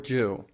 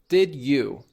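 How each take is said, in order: First: The words blend into one syllable ending 'oo'. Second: Both words are said fully and separately. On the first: "That gets changed to ja or ju" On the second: "Take a look at this example"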